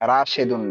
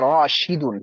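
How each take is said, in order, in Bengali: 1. 'sh' ধ্বনির পরের স্বরটি 'e'। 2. 'sh' ধ্বনির পরের স্বরটি 'i'। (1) "রাশেদুন না" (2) "উচ্চারণটা হবে রাশিদুন"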